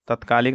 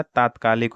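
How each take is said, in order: First: तत्कालिक said with short a, tat-kaalik; the incorrect तत्कालिक, short first vowel; wrong form. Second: तात्कालिक with long first aa, taat-kaalik; correct form. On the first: Teacher naming the wrong spelling, short-vowel तत्कालिक. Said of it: "नहीं होता". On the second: Teacher giving the correct spelling, long-vowel तात्कालिक. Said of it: "होता है". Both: Shown as a demonstration.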